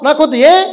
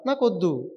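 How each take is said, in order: First: Raised, abrupt rejection; emphatic refusal. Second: Quiet refusal. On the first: Dying man refuses yet another offer, emphatic refusal. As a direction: push the offer away in a high, firm voice. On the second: Dying man refuses an offer of biryani, quiet refusal. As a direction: turn the offer down under your breath. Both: Acted.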